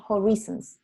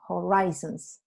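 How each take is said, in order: First: "Horizons" with "ree" in the middle; wrong pronunciation. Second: "horizons" with "rise" in the middle; stressed long i in "horizons", said slowly; correct pronunciation. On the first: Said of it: "¿no?". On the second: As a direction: model "horizons" slowly as ho-RYE-zons. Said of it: "se dice horizons". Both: Shown as a demonstration.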